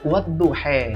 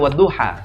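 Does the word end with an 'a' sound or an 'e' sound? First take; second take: e; a. First: The final vowel sounds like e. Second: The final vowel sounds like a. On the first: "yang dibacanya adalah wadduha" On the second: "dia tidak baca wadduha"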